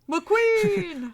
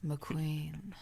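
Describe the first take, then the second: First: It is said in a happy way. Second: It is said in a seductive way.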